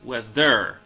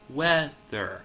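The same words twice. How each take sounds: First: The stress is not on the first syllable. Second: The stress falls heavily on the first syllable. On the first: The speaker calls it wrong. "which really no one says" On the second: The speaker calls it right. "placing a much heavier emphasis on the first half of the word"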